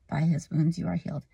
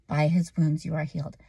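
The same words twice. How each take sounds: First: It is said timidly and hesitantly. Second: It is said firmly, with authority.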